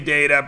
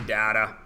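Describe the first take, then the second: First: The word is said the American way. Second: The word is said the British way. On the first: "Americans like to say data" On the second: "British people like to say data"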